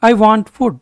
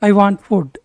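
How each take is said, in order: Both takes have the same delivery.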